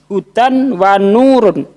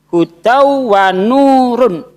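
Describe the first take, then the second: First: The n of hudan is pronounced clearly. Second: The n merges nasally into the following w. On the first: The speaker calls it wrong. "Anda baca" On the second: The speaker calls it right. "seharusnya ... dibaca gunnah itu hudau wa nurun"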